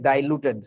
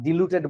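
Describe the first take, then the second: First: The first syllable is said as 'dai'. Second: The first syllable is said as 'di'. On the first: The speaker calls it right. "উচ্চারণটা actually ডাইলুটেড হওয়া উচিত" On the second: The speaker calls it wrong. "ডিলুটেড বলে অনেকে"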